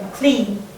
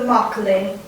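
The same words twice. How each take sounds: First: The stress is on the second syllable. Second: The stress is on the first syllable. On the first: The speaker calls it right. "you say McLean, like McCord" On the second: The speaker calls it wrong. "apparently he says Mister McLean, although it is not correct at all"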